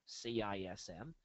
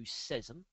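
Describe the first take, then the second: First: C I S M spelled letter by letter; C I S M said as four letters. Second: Cism said as one word, sizzum. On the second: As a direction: cism pronounced sizz-um like a word. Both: Shown as a demonstration.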